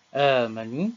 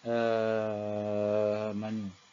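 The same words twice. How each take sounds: First: The vowel after the hamza is held briefly. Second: The vowel after the hamza is held very long. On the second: "enam harakat"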